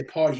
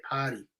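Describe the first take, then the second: First: "party" with a clear R, pʰɑɹti; New York party. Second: "potty" with the R dropped, broad ah; Boston potty. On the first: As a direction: say "party" with the R sounded. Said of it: "we say". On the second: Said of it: "you guys say". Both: Shown as a demonstration.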